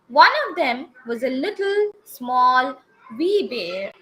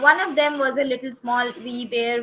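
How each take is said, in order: First: There are pauses between the describing words. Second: The describing words run together without pauses. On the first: The speaker calls it right. "everywhere they have used comma" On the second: The speaker calls it wrong. "if I'm reading the same sentence without any comma or full stop"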